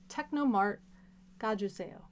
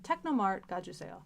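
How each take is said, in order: First: The phrase is said a little more slowly. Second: The phrase is said at normal speed.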